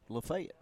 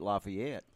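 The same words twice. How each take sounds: First: It is said the local Alabama way. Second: It is said the common, non-local way.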